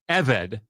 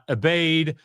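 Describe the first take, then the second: First: The middle consonant is a v sound. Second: The middle consonant is a b sound. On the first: The speaker calls it right. "Eved is how you pronounce the word slave" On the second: The speaker calls it wrong. "not abade"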